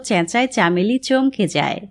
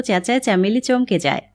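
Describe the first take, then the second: No difference in how they are said.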